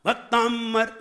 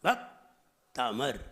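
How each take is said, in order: First: "भक्तांबर" high, with a long heavy "ताम"; wrong pronunciation. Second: Very slow "भक्तामर", paused after "भक्"; "भक्तामर" with a light m and no b; unforced correct pronunciation. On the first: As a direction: push "ताम" in "भक्तांबर" as the mistake. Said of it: "भक्तांबर नहीं". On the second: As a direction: model "भक्तामर" lower, in two gentle pieces. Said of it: "जोर नहीं लगाइए". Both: Shown as a demonstration.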